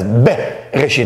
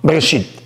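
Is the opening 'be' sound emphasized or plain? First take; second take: emphasized; plain. First: The opening 'be' sound is strongly emphasized. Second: The opening 'be' sound is said plainly. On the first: The speaker calls it right. "you more emphasize bet" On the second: The speaker calls it wrong. "It's not bereshit"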